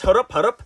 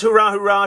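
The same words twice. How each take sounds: First: "Hurrup, hurrup." with a mangled u in place of the ah; garbled cheer. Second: Said in the usual way. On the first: Shown as a demonstration. Announcer quoting the loser's mangled hurrup cheer. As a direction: say "Hurrup" as a broken hurrah. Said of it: "Today he says". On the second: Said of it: "He usually says".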